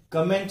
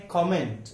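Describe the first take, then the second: First: कमेंट with a weak "kuh" start; short neutral first vowel in कमेंट; wrong pronunciation. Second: कमेंट with an open "ko" start; rounded first vowel in कमेंट; correct pronunciation. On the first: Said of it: "सही उच्चारण नहीं है". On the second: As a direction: say कमेंट as KOM-ent. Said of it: "इसका सही उच्चारण है". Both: Shown as a demonstration.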